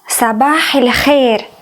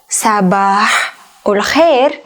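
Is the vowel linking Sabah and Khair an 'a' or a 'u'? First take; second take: a; u. First: The linking vowel before Khair sounds like a. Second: The linking vowel before Khair sounds like u. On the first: This is the Egyptian dialect form. "In Egyptian dialect, ... not Ul Khair" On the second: This is the standard formal Arabic form. "The most popular phrase in Fusha is Sabahul Khair"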